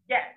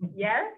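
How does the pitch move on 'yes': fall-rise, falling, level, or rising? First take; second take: falling; rising. First: The pitch falls from high to low. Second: The pitch rises upward. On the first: The answer is final. "a very final yes, from high down" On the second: The speaker is asking if it is really meant. "Do you really mean that? First from tone upward"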